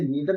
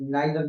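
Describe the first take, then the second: First: The first vowel sounds like 'ee'. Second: The first vowel sounds like 'eye'. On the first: "इसे नीदर भी पढ़ सकते हैं" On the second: "और नाइदर भी पढ़ सकते हैं"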